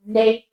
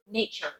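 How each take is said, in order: First: British Nature, split, ending "chuh"; British accent. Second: American nature with a final R; softer nature ending "cher", American; American accent. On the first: Teacher repeating Nature for learners, British accent. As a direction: Nature with dropped jaw and no R, British. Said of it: "Again, dropping the jaw". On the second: Teacher contrasting nature with British, American accent. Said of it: "With American accent". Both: Shown as a demonstration.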